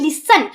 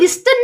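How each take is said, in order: First: The t sound is left out. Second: The t sound is clearly pronounced. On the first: The speaker calls it right. "टी को silent करना" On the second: The speaker calls it wrong. "इसको लिस्टन नहीं पढ़ना"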